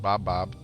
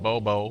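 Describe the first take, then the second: First: It is said as two closed 'bob' syllables. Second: It is said as two open 'bo' syllables. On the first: "it could be pronounced Bob Bob" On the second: "Gotta pronounce it Bobo"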